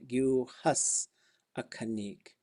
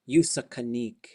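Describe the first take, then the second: First: The words are said separately, with the full hus. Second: The words run together into one word. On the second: "It just sounds like one word"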